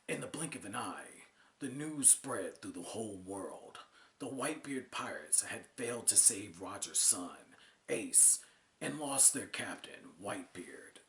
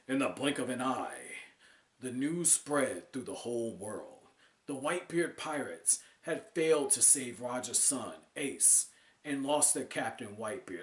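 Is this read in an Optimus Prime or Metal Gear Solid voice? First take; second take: Metal Gear Solid; Optimus Prime. First: It is read in a Metal Gear Solid voice. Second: It is read in an Optimus Prime voice.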